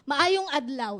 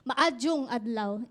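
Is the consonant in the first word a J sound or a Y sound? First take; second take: Y sound; J sound. First: The first word has a Y sound in the middle. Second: The first word has a J sound in the middle. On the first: This is how Cebuano speakers say it. "yung Cebuano, may Y yung sa kanila palagi" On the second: This is how Boholano speakers say it. "Sa amin naman, sa Boholano ... J"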